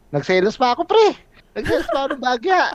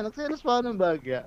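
First: Excited outburst. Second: Quiet mock sulk. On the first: Retold or imitated. Retelling his own jealous outburst. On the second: Repeating the jealous line softly.

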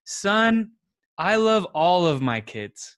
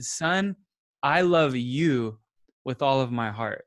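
First: A dad answering a bit formally and flat; detached dad reply. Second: Slow, tender and sincere; tender dad reply. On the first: Dad answering his crying son with a loud flat blanket statement. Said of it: "and then if I responded". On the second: Dad tenderly reassuring his crying son, slow and sincere. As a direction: tell your hurting son you love him, gently. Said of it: "as if I said". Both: Retold or imitated.

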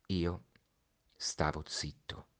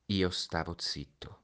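First: Hushed whisper, slow. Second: Said in the usual way. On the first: A narrator's reading. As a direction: breathe it out, barely audible. Narrator's refrain, hushed. (sussurrato piano, lento)

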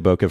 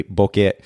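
First: "bokeh" the easy English way, BOH-kuh; anglicized pronunciation. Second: "bokeh" as in Japanese, BO-keh; technically correct pronunciation. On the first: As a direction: let "bokeh" end in a weak "kuh". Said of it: "We pronounce it". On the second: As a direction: end "bokeh" on a clear short "eh". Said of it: "It is technically". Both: Shown as a demonstration.

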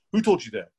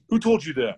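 First: Said in the usual way. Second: Higher, louder intense repeat. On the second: Retold or imitated. Coworker grilling a customer, intense higher repeat. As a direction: push it back at him, all intense. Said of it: "all intense with the guy".

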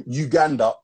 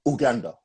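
First: Said in the usual way. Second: Uganda starting with "oo", no y sound; imitated "oo" opening on Uganda; mispronounced Uganda. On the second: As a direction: say Uganda as "oo-GAN-da". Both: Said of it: "He called Uganda".

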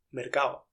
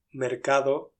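First: "mercado" said as mercao, d dropped; relaxed mercado. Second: Full mercado with d; careful mercado. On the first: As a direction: let the d of "mercado" vanish. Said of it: "mercado es lo que se suele decir". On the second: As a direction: pronounce every sound of "mercado". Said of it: "puedo decir mercado". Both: Shown as a demonstration.

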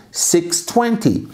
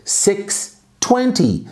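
First: Said in the usual way. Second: Very slow, higher and drawn out; careful teacher demo; slow model. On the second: Shown as a demonstration. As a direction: stretch it for the class. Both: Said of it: "basta falar seis vinte".

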